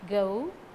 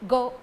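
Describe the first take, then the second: First: The vowel is long and drawn out. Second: The vowel is short and clipped. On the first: The speaker calls it right. "It should be a lengthened sound" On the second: The speaker calls it wrong. "We should not pronounce it in a short way"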